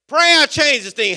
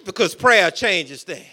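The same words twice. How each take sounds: First: Slow, louder and higher, each word weighted; emphatic refrain. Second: Said in the usual way. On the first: Real, not acted. Preacher pressing the refrain on the congregation, slow and loud. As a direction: drive the refrain home slowly.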